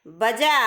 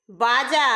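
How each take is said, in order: First: बजा with a brief a after ब; teacher's clear बजा, first vowel short. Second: बाजा with a long, held aa after ब; teacher's clear बाजा, both vowels long; long first vowel. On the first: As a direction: dictate बजा carefully, quick first syllable and long ending. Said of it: "ए के उच्चारण में कम समय लगता है". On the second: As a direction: dictate बाजा, drawing out the first syllable. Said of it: "आ के उच्चारण में अधिक समय लगता है". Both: Shown as a demonstration.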